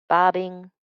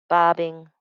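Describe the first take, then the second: No difference in how they are said.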